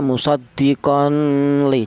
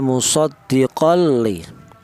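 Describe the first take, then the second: First: There is a nasal hum before the l. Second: There is no nasal hum before the l. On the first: The speaker calls it wrong. "Jangan dibaca ada dengungnya" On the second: The speaker calls it right. "Yang betul"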